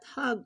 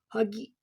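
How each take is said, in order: First: The word ends on a consonant sound. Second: The word ends on an added vowel sound. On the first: The speaker calls it wrong. "pronounced not Hag" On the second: The speaker calls it right. "but it's pronounced as Hagi"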